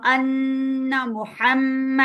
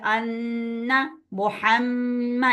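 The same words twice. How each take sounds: First: अन्ना मुहम्मा slow with held nasal doubled consonants; ghunna. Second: अन्ना मुहम्मा slow with nasal hum on nun and mim; ghunna. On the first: Teacher repeating the ghunna example, slow. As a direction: hum the doubled nun and mim. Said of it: "इन पे हम गुन्ना करेंगे". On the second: Teacher demonstrating ghunna nasalization. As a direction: hold the nasal sound in अन्ना. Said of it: "ऐसे इसको हम गुन्ना बोलते हैं". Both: Shown as a demonstration.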